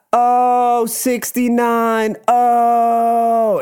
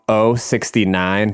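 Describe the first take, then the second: First: Very high, long drawn-out mock moan; drag hosts' call. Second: Said in the usual way. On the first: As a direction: stretch every vowel in a high imitation. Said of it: "both of them just be like". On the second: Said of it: "when they'd go on oh sixty-nine".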